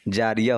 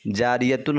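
First: The word ends in a plain vowel. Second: The word ends with the syllable tun. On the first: The reader stops at this word. "इसको रोकेंगे तो फिर जारिया हो जाएगा" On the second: The reading continues on without stopping. "जारियतुन हम कहें"

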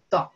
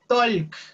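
First: The L sound is silent in the word. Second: The L sound is pronounced in the word. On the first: The speaker calls it right. "Como si la L no existiera ahí" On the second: The speaker calls it wrong. "Ustedes nunca vayan a decir talk"

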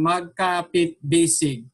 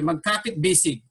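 First: It is read slowly, syllable by syllable. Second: It is read fast and smoothly.

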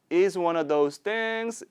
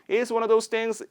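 First: The phrase is spoken slowly. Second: The phrase is spoken quickly. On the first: "느리게 세 번" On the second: "빠르게 세 번"

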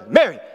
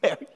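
First: It is said harshly and sternly. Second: It is said with a chuckle.

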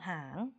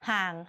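First: The syllable is said with a rising tone. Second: The syllable is said with a low tone. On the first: "ไม่มีรูปเลยเป็นเสียงจัตวา" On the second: "เติมเอกก็เสียงเอก"

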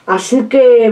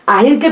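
First: The phrase is said in its full form. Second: The phrase is said in a reduced local form. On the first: This is the standard way of saying it. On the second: This is a regional way of saying it.

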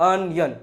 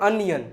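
Both takes have the same delivery.

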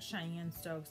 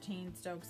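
First: The first part is two syllables, like 'Cheyenne'. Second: The first part is one syllable, like 'chain'. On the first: This is a pronunciation heard from others. "I've heard Cheyenne strokes" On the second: This is the speaker's own pronunciation. "I pronounce it chain strokes"

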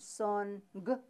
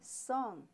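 First: The n and g are sounded separately. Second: The ng is one blended sound. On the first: The speaker calls it wrong. "You don't say NG. No" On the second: The speaker calls it right. "You say song"

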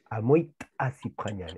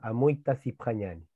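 First: The t is a popped, glottalized sound. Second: The t is a plain, non-glottalized sound. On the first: The speaker calls it right. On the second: The speaker calls it wrong.

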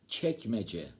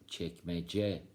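First: The stress is on the first syllable. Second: The stress is on the last syllable. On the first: It names a district of Istanbul. "Hatta özel isimlerde vurgu ilk hecede" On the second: It means a drawer in a cupboard. "Bakın son hecede"

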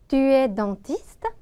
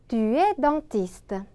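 First: The voice rises sharply at the end. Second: The voice stays level or falls at the end. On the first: It asks whether you are a dentist. "억양만 슉 하고 높여주시면 바로 의문문이 완성이 됩니다. 따라해 볼게요. 너는 치과의사니?" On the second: It states that you are a dentist. "너는 치과의사이다. 우리 같이 한번 읽어볼게요"

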